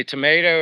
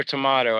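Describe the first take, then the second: First: Tomato as "tuh-MAY-toe"; tomato rhyming with potato, long A in the middle. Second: Tomato as "tuh-MAH-toe"; tomato with "mah" in the middle; broad A tomato. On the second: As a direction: say tomato with the open vowel of "father". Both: Shown as a demonstration. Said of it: "You say tomato or tomato".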